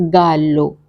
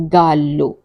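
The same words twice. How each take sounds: The two takes are said the same way.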